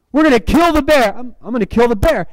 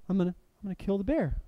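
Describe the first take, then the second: First: Rallying cry, high and forceful; imitated shouting. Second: Very soft, quick, hesitant mumble; acted timid repeat. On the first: Preacher acting two film characters psyching each other up, shouting. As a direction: call it out higher, building conviction. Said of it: "there's, like, shouting it back and forth". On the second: Preacher as the friend reluctantly repeating the vow, timid. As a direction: say it small and unconvinced, far softer.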